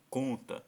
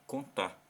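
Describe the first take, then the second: First: The stress is on the first syllable. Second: The stress is on the second syllable. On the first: The speaker calls it right. "o mais forte, ou a sílaba tônica, é o com" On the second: The speaker calls it wrong. "você vai ter que ler o tá com mais força"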